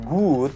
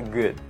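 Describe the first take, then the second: First: The vowel is drawn out long. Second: The vowel is kept short. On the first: The speaker calls it wrong. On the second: The speaker calls it right. "pendek aja"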